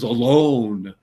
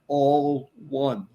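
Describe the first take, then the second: First: It is said as one smooth word. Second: It is split into two separate words. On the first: Being by oneself and lonely. The speaker calls it wrong. "Most people pronounce A L O N E as alone" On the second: Being united together as a whole. The speaker calls it right. "A L O N E is pronounced all one"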